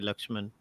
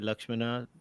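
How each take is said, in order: First: The name ends with a consonant sound. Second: The name ends with a final vowel sound. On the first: This is how North Indians say it. "North Indians might say Lakshman" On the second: This is how South Indians say it. "South Indians might say Lakshmana"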